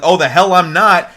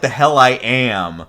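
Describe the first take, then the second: First: Higher, louder comeback; mock indignant retort. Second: Slow, measured denial at usual pitch; mock defiant retort. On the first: Kid rejecting being Ryo's son, mock indignant. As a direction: snap back in mild mock protest. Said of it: "Nalio's like". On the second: Kid's corrected comeback to Ryo, mock defiant. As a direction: drag out the comeback, lightly defiant. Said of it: "Or no, more like".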